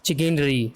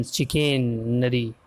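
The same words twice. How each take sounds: First: Said in the usual way. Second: चिकनरी drawn out slowly, syllable by syllable; slow sounding-out. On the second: Shown as a demonstration. Teacher repeats the word after spelling it, slow sounding-out. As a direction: stretch चिकनरी out at half speed.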